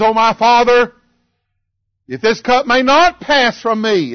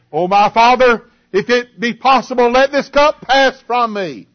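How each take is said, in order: First: Raised prayer with "not" lifted high; changed plea, stress on NOT. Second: Raised prayer leaning on "cup pass"; first plea, stress on PASS. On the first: Preacher contrasting Jesus's second prayer, stressing "not". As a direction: lift and lean on the word "not". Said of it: "do you see a change taking place". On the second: Preacher quoting Jesus's first prayer, pleading with stress on "pass". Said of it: "He first said". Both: Retold or imitated.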